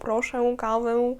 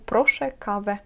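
First: The final vowels are drawn out and nasal. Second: The final vowels are a short plain e. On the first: The speaker calls it wrong. "з хвостиком в кінці не тягнемо, не кажемо прошу каву" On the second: The speaker calls it right. "е з хвостиком читається як звичайне е"

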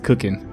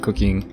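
First: It is said in a folksy trailer-park accent. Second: It is said in a plain standard accent. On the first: This is how the locals say it. The speaker calls it right. "Since we're in the trailer park, it's cooking" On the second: This is how outsiders say it. The speaker calls it wrong. "not cooking"

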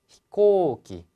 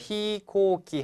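First: The first syllable 'hi' is kept short. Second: The first syllable 'hi' is drawn out long. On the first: The speaker calls it right. "그래서 히는 짧게" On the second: The speaker calls it wrong. "이 히를 길게 말하면 안 돼요"

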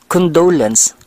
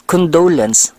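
First: The stress is on the second syllable. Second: The stress is on the second syllable.

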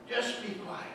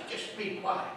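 No difference in how they are said.

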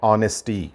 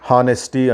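First: The word starts with a vowel, no h sound. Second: The word starts with an h sound. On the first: The speaker calls it right. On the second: The speaker calls it wrong. "హానెస్టీ అంటారు, కాదు"

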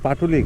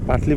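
First: The name is said with three syllables. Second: The name is said with two syllables. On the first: The speaker calls it right. "কিন্তু এটা হলো পাটুলি ঘাট" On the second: The speaker calls it wrong. "নাম এতক্ষণ ভুল বলছি, আমরা পাটলি বলছি"

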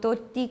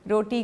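First: The word begins with a t sound. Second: The word begins with an r sound. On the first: The speaker calls it wrong. "तोती खानी है" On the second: The speaker calls it right. "रोटी को"

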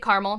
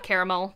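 First: Caramel is said the Ohio way. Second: Caramel is said a non-Ohio way. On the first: This is how the speaker normally says it. "I say caramel" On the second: This is how others say it. "not caramel"

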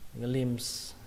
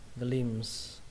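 No difference in how they are said.

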